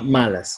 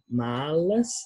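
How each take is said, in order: First: The L is pronounced the Spanish way. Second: The L is pronounced the Portuguese way. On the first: The speaker calls it wrong. "Não é como em espanhol, que a gente fala malas" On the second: The speaker calls it right. "A gente fala malas, né, o som de L, malas"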